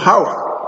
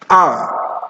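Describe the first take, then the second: First: The word begins with an audible H sound. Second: The word begins with a vowel, no H. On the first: The speaker calls it wrong. "No, it's not how" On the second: The speaker calls it right. "It's ah"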